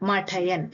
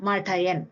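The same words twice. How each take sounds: The two takes are said the same way.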